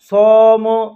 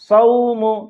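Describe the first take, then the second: First: The diphthong is changed from the short soft form. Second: The diphthong is short, soft and quick. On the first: The speaker calls it wrong. "इस तरह से नहीं पढ़ना है" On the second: The speaker calls it right. "नर्म आवाज के साथ जल्दी से पढ़ना है"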